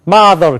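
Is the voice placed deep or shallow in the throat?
shallow. The voice comes from high in the throat. The speaker calls it wrong.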